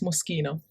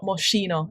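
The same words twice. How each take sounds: First: The name has an Italian pronunciation. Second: The name has an English pronunciation. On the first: The speaker calls it right. "it's Moschino" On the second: The speaker calls it wrong. "Just like it's not Moschino"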